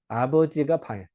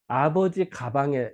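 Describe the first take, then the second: First: The break comes right after 'abeojiga'. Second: The break comes right after 'abeoji'. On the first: The father goes into the room. The speaker calls it right. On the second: It refers to the father's bag. The speaker calls it wrong.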